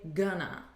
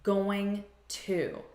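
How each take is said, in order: First: It is said as one reduced word. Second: It is said as two full words. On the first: "we say gonna" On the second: "the words going to"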